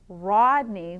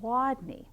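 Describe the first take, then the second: First: The name begins with an R sound. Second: The name begins with a W sound. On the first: The speaker calls it right. "which should be an R here" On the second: The speaker calls it wrong. "he says Wadney"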